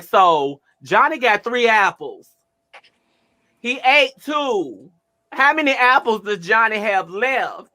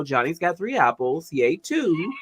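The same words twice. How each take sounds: First: High, slow, over-emphatic math question; mock-stern loud tutoring; loud teacher voice. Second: Softer, easy and patient; calm quiet tutoring voice; soft gentle version. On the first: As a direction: spell out each number like scolding. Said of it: "I wasn't sounding like". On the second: Retold or imitated. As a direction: say it kindly, the way you meant it. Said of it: "in my head, I wasn't sounding like".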